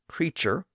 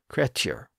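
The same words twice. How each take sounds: First: The middle consonant is a CH sound. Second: The middle consonant is a T sound. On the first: This is the modern pronunciation. "The modern form creature obviously has a CH sound" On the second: This is the original pronunciation. "originally been pronounced more like creature"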